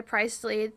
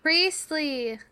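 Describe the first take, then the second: First: Priestley said as PRY-stlee, long i sound; Priestley with the first syllable rhyming with pry; mispronounced name. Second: Priestley said as PREEST-lee, long e sound; Priestley with the first syllable rhyming with priest; corrected name. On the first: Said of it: "it's Priestley, Lauren". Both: Real, not acted.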